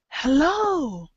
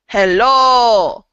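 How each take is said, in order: First: It is emphasized by the pitch going up. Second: It is emphasized by saying it louder. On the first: The speaker calls it right. "we don't make it louder. We go up" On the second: The speaker calls it wrong. "the Russian pattern, it's going to be hello. Like I'm going to make it stronger"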